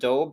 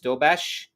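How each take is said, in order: First: The name ends with a plain s sound. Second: The name ends with an sh sound. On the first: The speaker calls it wrong. "Instead of Dobes" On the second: The speaker calls it right. "it's Dobesh"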